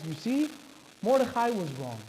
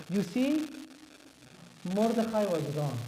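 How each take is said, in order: First: Said in the usual way. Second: Put-on Persian accent, unhurried; lightly hammed-up Persian accent. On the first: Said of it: "Now I could actually do the Persian accent". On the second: Shown as a demonstration. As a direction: say it like a Persian speaker. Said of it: "I could actually do the Persian accent".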